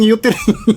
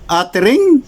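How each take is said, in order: First: The first vowel sounds like 'oo'. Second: The first vowel sounds like 'uh'. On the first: The speaker calls it wrong. "Ginawang utering" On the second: The speaker calls it right. "Kamalang kabalo mo pronounce og atering?"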